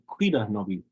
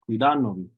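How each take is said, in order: First: The stress is not on the syllable da. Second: The stress is on the syllable da. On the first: The speaker calls it wrong. "you might hear them say Cuida novi" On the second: The speaker calls it right. "technically the pronunciation, you put the stress over the da"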